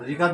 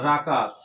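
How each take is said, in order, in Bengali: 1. প্রথম অক্ষরে 'i' স্বরধ্বনি আছে। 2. প্রথম অক্ষরে 'a' স্বরধ্বনি আছে।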